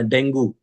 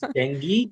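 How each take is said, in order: First: It is said with an Indian English pronunciation. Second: It is said with a British English pronunciation. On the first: The speaker calls it wrong. "if we think that I want to use Indian English only" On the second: The speaker calls it right. "No, it's not dengue. It's dengue"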